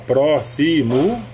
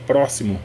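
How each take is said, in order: First: The word is said with three separate syllables. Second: The word is said with one syllable swallowed. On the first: "você pode separar próximo" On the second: "pôr duas sílabas"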